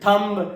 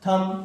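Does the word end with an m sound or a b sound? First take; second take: b sound; m sound. First: The word ends with an audible b. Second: The word ends on an m sound. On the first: The speaker calls it wrong. "ये सब कुछ भी नहीं होता है" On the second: The speaker calls it right. "Silent होता है"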